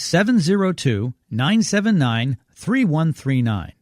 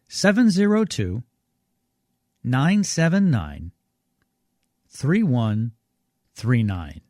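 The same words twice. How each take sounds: First: The number is read at normal speed. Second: The number is read more slowly.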